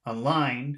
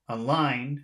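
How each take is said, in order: First: The stress is on the second syllable only. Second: The same.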